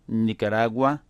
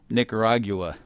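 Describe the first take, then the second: First: It is said with a Spanish accent. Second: It is said with an English accent.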